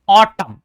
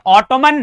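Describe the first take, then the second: First: The final n sound is silent. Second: The final n sound is pronounced. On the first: The speaker calls it right. "एन silent है" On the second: The speaker calls it wrong. "तो ये ऑटोमन नहीं है"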